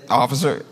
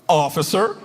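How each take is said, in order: First: It sounds plain and neutral, a simple greeting. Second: It sounds warm, like welcoming someone home.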